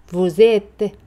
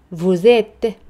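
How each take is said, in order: Both takes have the same delivery.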